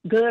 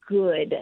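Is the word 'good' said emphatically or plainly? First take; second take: plainly; emphatically. First: The word is said plainly, without special emphasis. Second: The word is said with strong, drawn-out emphasis. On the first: It means ordinary good as opposed to bad. "it's not about something being, good or bad" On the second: It means thorough, pure, complete goodness. "I really want to communicate a lot with my tone of voice there"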